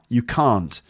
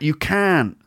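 First: It is said in a Received Pronunciation accent. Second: It is said in a West Country accent. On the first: "received pronunciation" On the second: "West Country accent"

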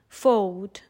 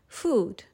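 First: The vowel rhymes with load. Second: The vowel is a long oo sound. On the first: This is the 14th and 15th century pronunciation. "they would rhyme with the word load" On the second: This is the pronunciation from Shakespeare's time. "they all sounded like we say the word food today"

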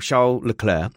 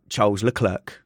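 First: The name is said with the careful pronunciation. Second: The name is said with the common casual pronunciation. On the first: The speaker calls it right. "I'll appease those people" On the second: The speaker calls it wrong. "not Charles Leclerc"

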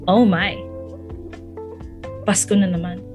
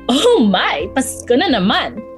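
First: It is said low, with an anxious tone. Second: It is said in a bright, excited tone. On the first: Christmas brings stress and worry. "But in a low tone with anxiety in my voice" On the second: Christmas is something to look forward to. "Not in an exciting tone of"

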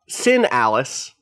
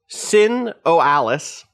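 First: The middle O is left out entirely. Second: The middle O is pronounced as a syllable.

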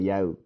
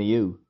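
First: The word rhymes with now. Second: The word rhymes with too. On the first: This is how some other people say it. "but then some people say yow" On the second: This is another way people say it. "And a you"

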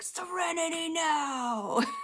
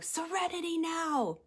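First: It is yelled loudly. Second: It is said calmly, without yelling.

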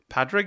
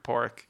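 First: The name is pronounced as its spelling looks. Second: The name has its native Irish pronunciation. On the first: The speaker calls it wrong. "then saw it written down and were like" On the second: The speaker calls it right. "they couldn't pronounce the word Pórraic"

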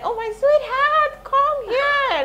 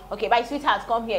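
First: It is said in a soft, romantic voice. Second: It is said flatly, without romance.

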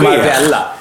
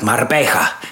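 First: The double L is said as an L sound. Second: The double L is said as a Y sound. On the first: This is how a Gotlander says it. "Jag är gotländsk. Då heter jag Marbella" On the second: This is how a Spanish speaker says it. "Hade jag varit spanjor hade jag sagt Marbella"

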